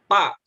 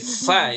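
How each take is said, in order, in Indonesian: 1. Diawali dengan bunyi p, tanpa hembusan napas. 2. Diawali dengan bunyi f yang berhembus. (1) "ketika baca fa-nya pa" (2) "ada aliran udara yang keluar ketika melafalkan fa"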